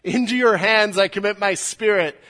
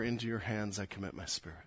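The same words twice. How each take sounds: First: A dying cry of victory, full voice; loud and victorious. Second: Soft prayer. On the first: Retold or imitated. Jesus crying out to his Father, loud and victorious. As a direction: ring it out loud and triumphant. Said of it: "he says it loudly, I think victoriously". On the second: Shown as a demonstration. Congregation's own prayer of trust.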